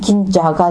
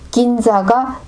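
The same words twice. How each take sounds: First: The middle consonant has a Korean-style j sound. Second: The middle consonant has a Japanese-style sound.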